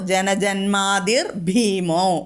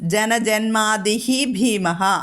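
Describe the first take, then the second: First: The words are joined with an r and o. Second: The words are said separately, ending in breathy h.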